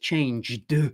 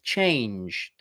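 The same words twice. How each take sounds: First: The final d is strongly and audibly voiced. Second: The final d is barely voiced, almost like t. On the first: The speaker calls it wrong. "it's not like you have to go like this" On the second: The speaker calls it right. "It should be like this"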